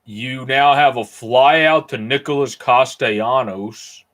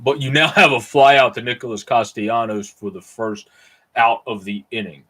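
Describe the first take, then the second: First: Slow put-on odd accent on "You now have a fly out to Nicholas Castellanos"; weird accent. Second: Said in the usual way. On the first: Streamer calling a fly out in play-by-play, in a weird put-on accent. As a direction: drawl the call in a strange made-up accent. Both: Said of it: "I just said that with a weird accent".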